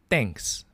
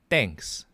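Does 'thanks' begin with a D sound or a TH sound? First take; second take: D sound; D sound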